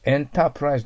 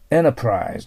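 First: The t sound is clearly pronounced. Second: The t sound is nearly silent. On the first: The speaker calls it wrong. "enterprise では発音しません。" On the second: The speaker calls it right. "enterprise と発音します。T はほとんど発音しないと思います。"

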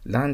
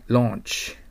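First: The vowel is an open 'ah' sound. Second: The vowel is a rounded 'aw' sound. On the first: The speaker calls it wrong. "Launch と読んじゃダメですね" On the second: The speaker calls it right. "AU はO と覚えてください"

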